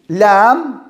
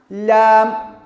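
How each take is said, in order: Both takes have the same delivery.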